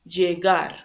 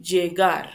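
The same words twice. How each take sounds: First: The double L is said with a y-like sound. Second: The double L is said with a y-like sound.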